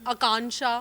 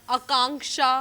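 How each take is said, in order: Both takes have the same delivery.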